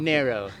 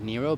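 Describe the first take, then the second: First: The name is said like the word 'narrow'. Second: The name is said like the word 'Nero'. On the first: This is how the name's owner says it. "I want to say it the way you say it" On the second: This is how the name is usually said locally. "Here we usually pronounce that Nero"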